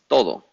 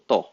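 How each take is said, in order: First: Both syllables are said in full. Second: Only the first syllable is said. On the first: "the next one is todo" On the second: "Sometimes we say"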